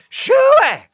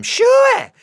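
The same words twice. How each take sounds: First: Second high, loud shoo with a falling end; repeat holler. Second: High, loud shooing holler; hollering at goats. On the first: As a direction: yell it again across the yard. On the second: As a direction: shoo the goats off with a big high yell. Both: Acted. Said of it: "I hollered at them".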